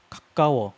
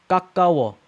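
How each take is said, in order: First: 가까워 with a light, airy start, then tense 까; barely touch the first sound of 가까워, punch the middle; soft first consonant. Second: 가까워 loud, both consonants hard and tense; tense first consonant. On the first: Teacher alternating top and bottom, 가까워 soft at the start. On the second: Teacher alternating top and bottom, 가까워 tense from the start. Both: Shown as a demonstration.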